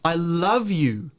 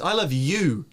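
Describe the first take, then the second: First: The stress is on the word love. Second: The stress is on the word you. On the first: It is love, not hate or regret. "The love is now stressed" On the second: It is you and nobody else. "and nobody else"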